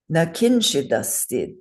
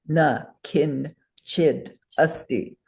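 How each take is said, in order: First: The syllables run together without any pauses. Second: Each syllable is separated by a short pause. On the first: The speaker calls it right. "the way those sounds run together" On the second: The speaker calls it wrong. "In English, we would break the sounds up"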